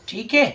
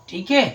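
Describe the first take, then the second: The two takes are said the same way.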